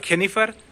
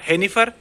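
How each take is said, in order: First: It begins with a rough kh sound. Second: It begins with a breathy h sound. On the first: "ना तो खेनिफर" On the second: "ना हेनिफर"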